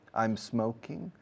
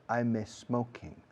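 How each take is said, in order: First: The s is joined straight onto the m. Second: An extra e vowel comes before the s. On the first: The speaker calls it right. "Pega la S de smoking a la M de I'm, por favor. Como si fuera uno solo" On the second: The speaker calls it wrong. "No digáis ... No una letra E delante de la S"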